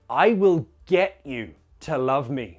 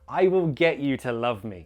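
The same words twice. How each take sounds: First: It is said forcefully, stressing the verb. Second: It is said in a light, neutral tone. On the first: It sounds like forcing the person to love you. The speaker calls it wrong. "if you use a stronger tone" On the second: It sounds like an arrangement or persuasion. The speaker calls it right. "That sounds like an arrangement or you're trying to convince them"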